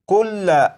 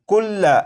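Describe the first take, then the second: The two takes are said the same way.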